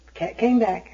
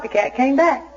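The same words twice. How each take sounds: First: Dropped, softer echo of the line; quiet repeat. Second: Said in the usual way. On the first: Shown as a demonstration. Repeating the cat news to the audience, softer and resigned. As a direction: let it sink in, quietly. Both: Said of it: "repeated punchline".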